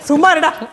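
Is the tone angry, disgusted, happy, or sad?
disgusted. It is said in a disgusted tone. "வெறுப்பா. அருவருப்பு"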